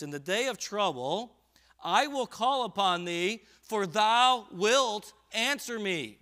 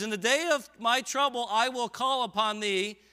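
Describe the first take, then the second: First: Said in the usual way. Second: Louder, higher, slower preached reading. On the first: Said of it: "he says this". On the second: Real, not acted. Preacher rereading the verse to the church, more forcefully. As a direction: hammer the verse home. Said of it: "And he says".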